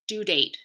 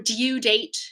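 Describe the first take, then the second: First: No y sound comes before the vowel. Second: A y sound comes before the vowel. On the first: The speaker calls it right. "we say due, due date" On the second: The speaker calls it wrong. "We don't say dude or due date"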